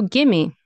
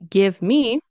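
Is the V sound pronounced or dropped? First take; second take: dropped; pronounced. First: The V sound is dropped completely. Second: The V sound is clearly pronounced.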